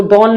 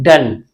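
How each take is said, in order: First: डॉन with an open o vowel; wrong reading. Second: डन with a short uh vowel, pitch dropping; correct reading. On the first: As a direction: misread it as डॉन, with ऑ. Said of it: "इसको डॉन नहीं पढ़ेंगे". (ऑ की मात्रा वाला डॉन) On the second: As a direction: say डन with अ, not ऑ. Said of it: "इसको क्या पढ़ते हैं". (अ की आवाज़ वाला डन) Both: Shown as a demonstration.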